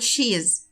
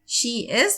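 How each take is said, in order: First: The words are contracted into one syllable. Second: Two full words are said separately.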